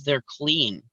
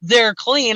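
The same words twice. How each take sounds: First: Low, flat-voiced "They're clean." dropped softly; grumpy retort. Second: "They're clean." said higher and louder, mock-snotty; retelling the clerk's reply, louder mock imitation. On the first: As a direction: mutter "They're clean." like a curt clerk. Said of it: "totally grump mode". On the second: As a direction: throw back "They're clean." in a mocking sing-song. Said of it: "she's like".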